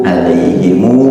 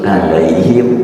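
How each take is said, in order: First: The word ends in himu, with an extra vowel. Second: The word ends in him, with an i vowel.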